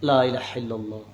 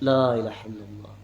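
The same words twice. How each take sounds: No difference in how they are said.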